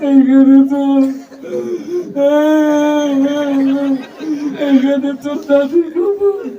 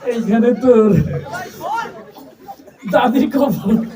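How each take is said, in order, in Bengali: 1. লাইনটি কান্না-ভরা গলায় আবৃত্তি করা হচ্ছে। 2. লাইনটি লাজুক, ভীরু গলায় আবৃত্তি করা হচ্ছে। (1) "ও আগেই কান্দা শুরু করে দিছে" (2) "তুই যে সরমালা মানুষ"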